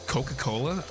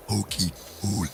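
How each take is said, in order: First: Said in the usual way. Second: Croaky inhaled "cokey cola"; sucked-in burpy voice. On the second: Shown as a demonstration. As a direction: say it on sucked-in air, like a burp. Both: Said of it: "I remember doing that voice".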